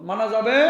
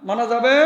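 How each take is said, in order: Both takes have the same delivery.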